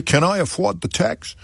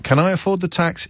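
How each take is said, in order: First: Light mock New York accent, pitched higher; a hint of a New York accent. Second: Said in the usual way. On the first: Host tries a New York accent reading a second-home owner. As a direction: try out a New York voice on the quote. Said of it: "Shall I do a new". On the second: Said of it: "No, I won't do an accent".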